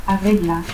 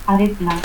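First: Said in the usual way. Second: Arregla as "arrecla". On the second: Shown as a demonstration. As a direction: harden the G of Arregla to K. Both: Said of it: "confusión de la G y que".

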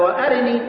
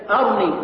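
First: وأرني said "wa-arini", with a short i after the r; وأرني with the ra voweled, a-ri-ni; full kasra on the ra. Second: أرني said "arni", no vowel after the r; أرني in two syllables, ar-ni; sukun on the ra. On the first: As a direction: keep the vowel between r and n in وأرني. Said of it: "ساكن الكسر". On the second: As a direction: close the r straight onto the n in أرني. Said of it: "يبقى قيد". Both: Shown as a demonstration.

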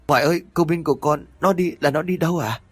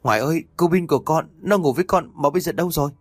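First: High, fast frightened plea again; panicked. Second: High, fast frightened plea to grandma; panicked. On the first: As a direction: rush the question in fear. (hốt hoảng hỏi dồn, cao và nhanh) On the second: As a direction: blurt it out in alarm. (hoảng hốt gọi bà, cao và nhanh) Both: Acted. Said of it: "hốt hoảng".

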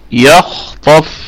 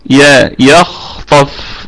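First: يخطف drawn out, the ي thin; very slow demo. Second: يا and يخطف drawn out, the ي kept thin; very slow demo. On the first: Teacher modelling the corrected word for students. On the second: Teacher spelling it out slowly for students. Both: Shown as a demonstration. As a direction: stretch يخطف slowly, ي light. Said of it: "ونراعي كمان ترقيق الياء".

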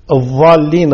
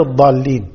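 First: الضالين as "adh-dhaalleen"; za for dad. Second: الضالين as "ad-daalleen"; dad. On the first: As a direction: buzz an emphatic dh in the first الضالين. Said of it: "بينما الضالين بالضاء". (الضالين بالظاء) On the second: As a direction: stop a heavy d in الضالين. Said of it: "كذلك الضاد". (الضالين بالضاد) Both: Shown as a demonstration.

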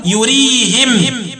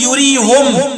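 First: "يريهم" as yurihim, drawn out; i after the h of "يريهم", stop on m; kasr ha, still mim. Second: "يريهم" as yurihum; u after the h of "يريهم", stop on m; damm ha, still mim. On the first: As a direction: end "يريهم" slowly with -him. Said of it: "الميم وكسر الهاء وقفا يقولون". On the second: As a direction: end "يريهم" with -hum. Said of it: "بإسكان الميم وضم الهاء وقفا". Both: Shown as a demonstration.

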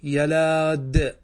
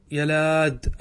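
First: يلاد stretched very slowly, every sound held; teacher dictating يلاد slowly; slow drawn-out word. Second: Said in the usual way. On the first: Shown as a demonstration. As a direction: draw out يلاد for the class. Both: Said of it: "نقول".

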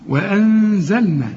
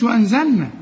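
First: وأنزلنا slow, with a held nasal hum on the nun; slow with ghunna. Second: Sung, وأنزلنا rattled off fast with no ghunna on the nun; sung, mock the rushed reading; rushed, no nasal hum. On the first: Teacher models the ghunna in وأنزلنا slowly. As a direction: let the nun ring through the nose. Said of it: "في غنة هنا ما تنساهاش". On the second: Sung, teacher imitates a hurried student who skips the ghunna. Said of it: "ما تقولش وأنزلنا". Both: Shown as a demonstration.

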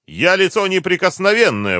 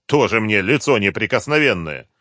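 First: High, loud protest; indignant cry. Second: Louder but only slightly raised, falling at the end; scornful echo. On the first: Captive driver claims immunity to the colonel, crying out. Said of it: "выкрикнул Юрлов". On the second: Colonel mocks the driver's claim of immunity, scornful. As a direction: throw the claim back with scorn. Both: A narrator's reading.

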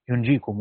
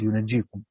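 First: ينجيكم as "yunjīkum", no doubled j; "yun-jī-kum", the light reading of ينجيكم; light unstressed jim. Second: ينجيكم as "yunajjīkum", with doubled j; "yu-naj-jī-kum", the geminated reading of ينجيكم; doubled jim. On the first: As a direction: say ينجيكم with a silent-vowel n and single j. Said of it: "قرأ يعقوب بالتخفيف". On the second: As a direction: say ينجيكم with a vowel after n and a held j. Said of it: "وقرأ العامة بالتجديد". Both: Shown as a demonstration.

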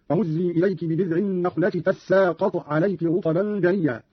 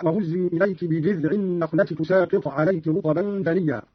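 First: "تساقط" as tassaaqat; slow recitation, tense double s in "تساقط"; open ta, doubled sin. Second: Said in the usual way. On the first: Shown as a demonstration. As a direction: give "تساقط" an a after t and a held double s. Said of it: "قرأ قالون بفتح التاء وتشديد السين هكذا". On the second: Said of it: "بفتح التاء".

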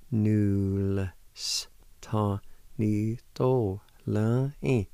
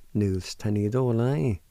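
First: "Null s ta ni do la i" drawn out syllable by syllable; slow demonstration. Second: "Null s ta ni do la i" run together as one word; joined-up pronunciation. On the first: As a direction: stretch every sound slowly. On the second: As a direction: blend all the syllables without pauses. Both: Shown as a demonstration. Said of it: "like this".

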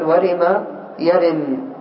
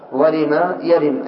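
First: Each syllable of ورم يرم drawn out very slowly; teacher stretching ورم يرم; slow syllable demo. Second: Said in the usual way. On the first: Shown as a demonstration. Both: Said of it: "قد يقول قائل".

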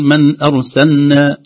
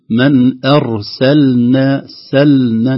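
First: Slow, loud "أرسلنا" said as "arsanna"; wrong lost lam. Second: Very slow, loud "أرسلنا" with the l fully sounded; correct clear lam. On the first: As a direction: swallow the l of "أرسلنا" into a double n. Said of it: "تضيع اللام". (نطق خاطئ بإضاعة لام "أرسلنا") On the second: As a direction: hold the l in "سلنا" before the n. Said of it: "الحرص على إظهار اللام". (نطق "أرسلنا" بإظهار اللام) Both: Shown as a demonstration.

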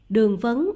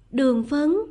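First: Said in the usual way. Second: "Đường vấn?" rising sharply at the end, louder; puzzled questioning repeat. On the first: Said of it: "Hắn nói tiếp". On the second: A narrator's reading. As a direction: echo "Đường vấn" as a question, pitch climbing on "vấn". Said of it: "Nàng khẽ lặp lại".

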